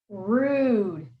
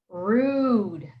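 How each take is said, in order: Both takes have the same delivery.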